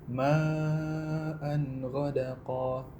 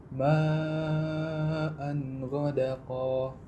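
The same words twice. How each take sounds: The two takes are said the same way.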